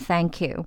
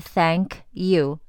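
First: The two words run together as one. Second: The two words are said separately. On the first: "连在一起变thank you" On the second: "本来是thank you"

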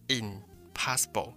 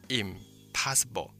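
First: An n sound comes before the p. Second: An m sound comes before the p. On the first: The speaker calls it wrong. "如果是这样拼就会变成impossible，就变成你的舌头要非常的费力" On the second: The speaker calls it right. "但如果直接变成m，就会变成impossible"

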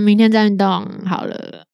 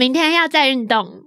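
First: It sounds lazy and dispirited, putting exercise off. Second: It sounds upbeat and determined to exercise again.

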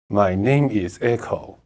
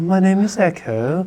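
First: It is said flat, like a full stop. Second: It is said lively, with expressive intonation.

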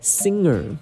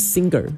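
First: The ng flows on with little or no g. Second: A strong hard g follows the ng sound. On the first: The speaker calls it right. "应该没办法完全没有g 的声音" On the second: The speaker calls it wrong. "那个g 的声音不能那么大"

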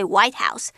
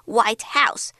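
First: The stress falls on the word White. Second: The stress falls on the word House. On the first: It is the US president's residence. "指的就是美国的白宫" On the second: "那指的就是一栋白色的房子"

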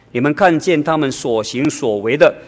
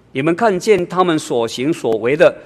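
No difference in how they are said.

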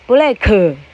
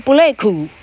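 First: It is said as two syllables. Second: It is said as one syllable.

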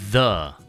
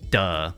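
First: It begins with a voiced th sound. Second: It begins with a hard d sound. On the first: The speaker calls it right. "It's the" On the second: The speaker calls it wrong. "some people say duh, but it's not duh"

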